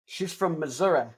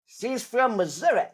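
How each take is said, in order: First: Said in the usual way. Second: A light mock Missouri drawl, a bit higher and slow; imitating grandma's Missouri accent. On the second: Imitating how grandma sounds from Missouri. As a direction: put on grandma's Missouri twang. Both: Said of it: "That's how my grandmother sounds".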